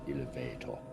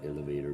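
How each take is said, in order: First: It has a foreign, non-English pronunciation. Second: It has an English pronunciation.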